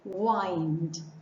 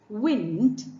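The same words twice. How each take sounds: First: The vowel does not rhyme with dimmed. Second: The vowel rhymes with the word dimmed. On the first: It names turning something around and around. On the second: It names a breeze.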